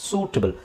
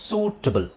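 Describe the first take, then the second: Both takes have the same delivery.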